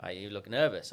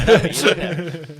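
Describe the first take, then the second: First: Said in the usual way. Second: Coach's line, laughed out and louder with "look" hit; leaning on "look" through a laugh; laughing retold punchline. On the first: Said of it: "And he's like". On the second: Recalling the speaking coach's quip, laughing loudly. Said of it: "He's like".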